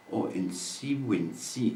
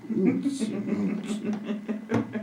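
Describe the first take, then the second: First: Said in the usual way. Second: High, very slow sing-song; sing-song high drawn-out. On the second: Shown as a demonstration. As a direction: stretch it out high and playful.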